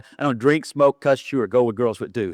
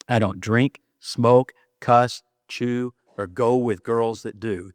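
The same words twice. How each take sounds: First: The phrase is rattled off quickly. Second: The phrase is said at a normal pace.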